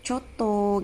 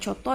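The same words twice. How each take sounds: First: The word is drawn out long. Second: The word is said short and quick. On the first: It signals refusal or a negative answer. "coto ketika nadanya panjang" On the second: It carries a positive meaning. "penyebutannya itu tidak panjang"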